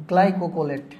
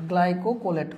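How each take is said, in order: Both takes have the same delivery.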